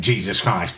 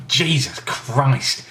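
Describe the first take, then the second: First: Said in the usual way. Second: Slow, stunned real shock. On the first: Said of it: "I'd reacted by saying". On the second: Real, not acted. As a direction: caught off guard by the sourness. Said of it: "I'd reacted by saying, "Jesus Christ," because, just 'cause I was surprised".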